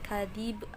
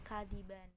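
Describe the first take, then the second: First: The word ends abruptly on a b sound. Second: The word ends with an n sound. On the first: "bukan kadib" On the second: "atau kadiban"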